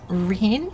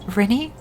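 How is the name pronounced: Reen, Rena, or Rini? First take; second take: Reen; Rini. First: The name is said as Reen, rising. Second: The name is said as Rini, rising.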